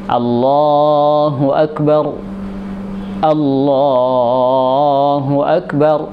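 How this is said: The two phrases are split by a pause. "Jadi dipisah"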